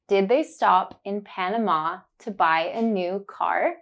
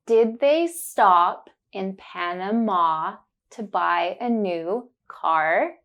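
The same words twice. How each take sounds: First: Said in the usual way. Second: Slow careful question, leaning on the ah words; slow, focused on the sound. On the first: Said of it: "Then you will hear it naturally". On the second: Shown as a demonstration. Teacher slowly modelling the question for learners. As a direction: say it slowly, stressing Panama and car. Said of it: "I will say it slowly and focus on the sound".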